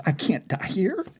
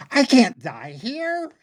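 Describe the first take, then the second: First: High-pitched dread, rising at the end; panicked thought. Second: Slow, high, drawn-out cry of terror; mounting panic. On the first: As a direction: think it aloud in fright. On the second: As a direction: stretch it into a desperate wail. Panicked thought repeated, more intense. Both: Acted.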